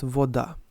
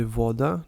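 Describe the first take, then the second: First: "voda" stressed on DA; teacher showing the wrong stress on "voda"; wrong stress on second syllable. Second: "voda" stressed on VO; teacher showing the right stress on "voda"; stress on first syllable. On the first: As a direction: say "voda" with the weight on the last syllable, vo-DA. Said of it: "not voda". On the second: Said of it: "the stress usually follows on the first syllable". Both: Shown as a demonstration.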